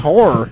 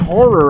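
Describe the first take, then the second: First: The word is squeezed into about one syllable. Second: The word is said with two full syllables. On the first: "I say horror" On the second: "I never say horror"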